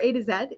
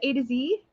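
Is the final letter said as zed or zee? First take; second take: zed; zee. First: The last letter is said the Canadian way, zed. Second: The last letter is said the American way, zee.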